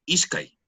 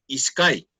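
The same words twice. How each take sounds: First: Ishkai stressed on its first syllable, ISH-kai; slow Ishkai, weight on ISH; penultimate stress. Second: Ishkai stressed on its last syllable, ish-KAI; wrong final stress. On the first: Shown as a demonstration. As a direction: model Ishkai with the accent up front. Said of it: "en la penúltima". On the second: Retold or imitated. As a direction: put the weight on the end of Ishkai. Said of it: "El acento va".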